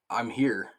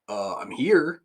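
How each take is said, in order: First: It is said plainly, without sarcasm. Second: It is said with a sarcastic tone.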